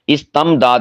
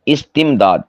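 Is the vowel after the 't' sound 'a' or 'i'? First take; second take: a; i. First: The vowel after the t is a. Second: The vowel after the t is i. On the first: The speaker calls it wrong. "इस्तमदाद नहीं" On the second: The speaker calls it right. "ता के नीचे कसरा"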